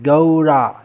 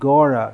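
First: The first vowel glides from 'a' to 'u'. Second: The first vowel is a plain 'o' sound. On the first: The speaker calls it right. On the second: The speaker calls it wrong. "not Gora"

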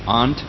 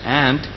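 First: The word is said with a British pronunciation. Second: The word is said with a non-British pronunciation.

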